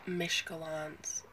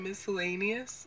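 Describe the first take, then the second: First: The word begins with 'mish' and is shortened. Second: The word begins with 'miss' and is said fully. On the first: The speaker calls it wrong. "I thought that this word was pronounced Mishkalans" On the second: The speaker calls it right. "You mean miscellaneous?"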